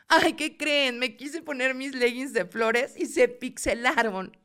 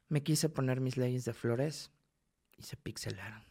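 First: It is said expressively, with lively intonation. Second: It is said flat, monotone and deadpan.

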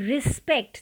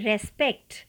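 First: The first vowel is a short 'i' sound. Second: The first vowel is an open 'e' sound. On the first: The speaker calls it right. "तो इसे पढ़ना है रिस्पेक्ट, जैसे आई लिखा हो" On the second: The speaker calls it wrong. "इसे लोग पढ़ते हैं रेस्पेक्ट"

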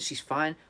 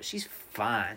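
First: It is said in a flat, indifferent tone. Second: It is said in an admiring, appreciative tone. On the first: She is merely okay. "do you mean she's fine?" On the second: She is very attractive. "She's hella fine"

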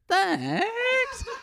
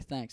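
First: The voice goes up on the word. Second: The voice stays level or falls.

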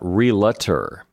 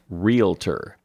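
First: The word is said with three syllables. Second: The word is said with two syllables. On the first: The speaker calls it wrong. "There are not three syllables in that word" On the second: The speaker calls it right. "It's just realtor"

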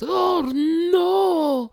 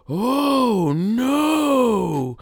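First: It imitates the Japanese dub's delivery. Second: It imitates the American dub's delivery.

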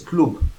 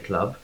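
First: It is said in a northern English accent. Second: It is said in a southern English accent. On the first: "like someone from the north of England would say club" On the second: "like me and you would say club"

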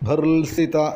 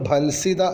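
First: An 'r' sound comes before the 's'. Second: An 'l' sound comes before the 's'. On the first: The speaker calls it right. "ഭർസിത എന്ന് തന്നെ ചൊല്ലി പഠിക്കണം" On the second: The speaker calls it wrong. "നമ്മൾ ഭൽസിത എന്നാണ് പറയാറുള്ളത്, അതല്ല വാക്ക്"

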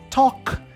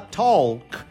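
First: The L sound is left out of the word. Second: The L sound is pronounced in the word. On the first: The speaker calls it right. "a gente tira o L e fala simplesmente talk" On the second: The speaker calls it wrong. "a gente não fala talk"

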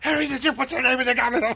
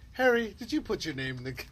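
First: It is screamed loudly and angrily. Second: It is said calmly and quietly.

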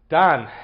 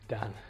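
First: It is said with much more enthusiasm. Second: It is said with little enthusiasm.

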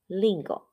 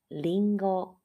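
First: The pitch moves up or down across the word. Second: The pitch stays level across the word. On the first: The speaker calls it wrong. "我们台湾很常被讲成lingo" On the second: The speaker calls it right. "其实它的发音呢是平一点的lingo"

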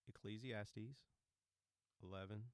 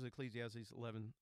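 First: It is said slowly. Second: It is said fast.

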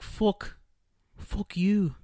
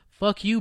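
First: It is said in a Scottish-Irish accent. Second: It is said in an American accent. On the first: "a U sound is like an actual ooh" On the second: "Americans would be like"

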